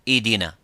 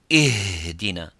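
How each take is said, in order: First: The h sound is too weak and disappears. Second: The h sound is pushed out too strongly. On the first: "if it's weak and weaker and weaker, you make it weaker, it becomes idina" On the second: "if we try to give it more strength"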